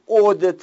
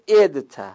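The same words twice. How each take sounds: First: The first vowel is not a pure i. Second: The first vowel is a pure i. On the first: The speaker calls it wrong. "مجهولش رو نگو عدت" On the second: The speaker calls it right. "اخلاص الکسر یعنی بگو عدت"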